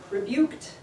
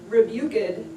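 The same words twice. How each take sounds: First: The -ed ending is not a separate syllable. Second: The -ed ending is a separate syllable. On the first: This is today's usual pronunciation. "They sound pretty normal" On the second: This is the older traditional pronunciation. "pronounced with an extra syllable"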